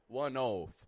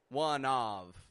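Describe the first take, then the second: First: The vowel in "of" sounds like "oh". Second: The vowel in "of" sounds like "ah". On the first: "or oaf" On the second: "like an ah"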